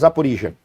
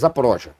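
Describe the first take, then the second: First: The name is said with a Ukrainian pronunciation. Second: The name is said with a Russian pronunciation. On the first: "O ucraniano ele fala" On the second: "o russo fala, eu tenho a impressão que é"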